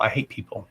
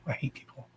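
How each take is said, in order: First: Said in the usual way. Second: Much softer, almost swallowed repeat; under her breath. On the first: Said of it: "repeats it quieter". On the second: Real, not acted. To viewers, muttered aside that she hates people. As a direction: drop it to a near-silent aside. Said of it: "repeats it under breath".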